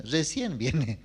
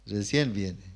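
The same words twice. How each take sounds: First: Said in the usual way. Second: Lower, softer, chuckling echo; amused echo of late grandmother, softer with a chuckle; laughing repeat. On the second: Shown as a demonstration. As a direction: laugh at how late she came.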